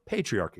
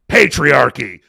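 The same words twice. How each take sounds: First: The word is said in a flat, neutral tone. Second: The word is said in a charged, loaded tone. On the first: It names a plain social structure, as in a textbook. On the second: It names a deliberate scheme to oppress women.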